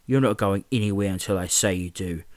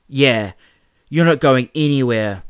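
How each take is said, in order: First: Said in the usual way. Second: Loud, higher gloating echo; laughing jeer. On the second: Acted. Carl echoing James at Mark, loud gloating jeer. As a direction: jeer it like a sidekick. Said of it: "Carl laughed".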